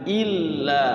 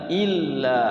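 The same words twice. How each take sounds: Both takes have the same delivery.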